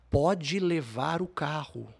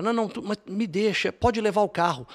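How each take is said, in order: First: Drawn out slow, spelling out the offer; slow it right down, making the point; slow pleading offer. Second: High, louder anxious pleading. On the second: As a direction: offer the car in a panicky rush. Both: Retold or imitated. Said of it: "cheguei a falar".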